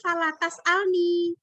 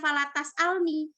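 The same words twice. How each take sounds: First: The final 'ni' has a long vowel. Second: The final 'ni' has a short vowel. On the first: The speaker calls it wrong. "mestinya kan falatas alni" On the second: The speaker calls it right. "bukan falatas alni. Karena kalau ninya pendek"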